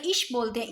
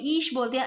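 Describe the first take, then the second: First: ईश with a short, quick i; voyelle brève. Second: ईश with a long, unhurried ee; voyelle longue. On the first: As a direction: say ईश as "ish", cutting the vowel short. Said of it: "तो बड़ी मात्रा आएगी". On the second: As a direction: say ईश as "eesh", taking time on the vowel. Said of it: "आराम से". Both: Shown as a demonstration.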